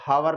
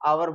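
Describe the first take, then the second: First: The word begins with an audible h sound. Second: The word begins directly with a vowel sound. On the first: The speaker calls it wrong. "हावर नहीं बोलेंगे" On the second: The speaker calls it right. "आवर बोलेंगे इसको"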